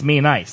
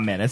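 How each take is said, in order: First: The name sounds like 'me' plus 'nice'. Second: The name sounds like the word 'menace'. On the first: The speaker calls it right. "it's Me Nice" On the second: The speaker calls it wrong. "It's not Menace"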